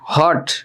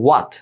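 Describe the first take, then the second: First: It begins with an h and no w. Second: It begins with a w and no h. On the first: The speaker calls it wrong. "হট না হোয়াটও না, দুইটাই ভুল" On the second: The speaker calls it right. "সঠিক উচ্চারণ হচ্ছে ওয়াট"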